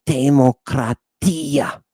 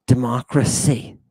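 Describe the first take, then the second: First: Slow Greek "Demokratia" with a hard t and open a's; "Demokratia" drawn out as ancient Greek; Greek pronunciation. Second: Said in the usual way. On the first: Shown as a demonstration. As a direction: sound out "Demokratia" the Greek way, deliberately. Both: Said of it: "Do you see the word democracy?".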